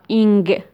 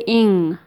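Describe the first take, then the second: First: It finishes with a hard g sound. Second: It finishes in a nasal, no g. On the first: The speaker calls it wrong. "You never hear a native speaker saying ing" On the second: The speaker calls it right. "They say ing"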